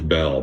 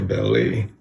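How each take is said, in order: First: The name is said with one syllable. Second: The name is said with two syllables. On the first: "You would think it's Bell" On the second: "I heard somebody say Belly"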